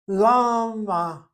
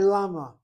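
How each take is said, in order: First: The m sound is held long, doubled. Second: The m sound is short, not doubled. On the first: "I went with the doubling of the mem" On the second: "people say llama"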